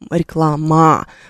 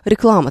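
First: The unstressed vowel is pronounced full and clear. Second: The unstressed vowel is reduced to a vague sound. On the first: The speaker calls it wrong. "вы не будете здесь произносить реклама" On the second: The speaker calls it right. "Вы произносите реклама. Там такой, знаете, неопределенный гласный звук"

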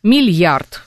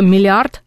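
First: The l is softened with a y-glide. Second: The l sound is plain, with no y-glide. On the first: This is an allowed colloquial variant. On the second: This is the standard form.

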